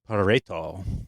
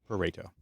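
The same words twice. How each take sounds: First: It is said with an exaggerated Italian accent. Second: It is said in a plain English accent. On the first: "a particular Italian flair that you're supposed to say it with" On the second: "that's how I've always heard it pronounced"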